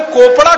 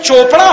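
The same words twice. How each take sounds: First: "कोपड़ा" opening on a hard k; ch spelling sounded as k in "कोपड़ा"; mock-logical pronunciation. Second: Said in the usual way. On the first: Shown as a demonstration. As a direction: say "कोपड़ा" with k in place of ch. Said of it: "कोपड़ा क्यों नहीं होता". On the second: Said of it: "में चोपड़ा होता है".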